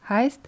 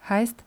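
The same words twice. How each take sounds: Both takes have the same delivery.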